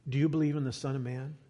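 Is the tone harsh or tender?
tender. It sounds soft, tender and compassionate.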